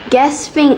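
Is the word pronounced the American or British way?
American. It is pronounced with an American accent. "gasping is American English"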